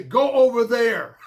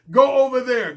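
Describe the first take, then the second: First: Quoting a saying with a slow, amused chuckle; mock saying, laughing. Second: Said in the usual way. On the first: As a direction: toss it off through a laugh, slowly. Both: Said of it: "Go, as they say".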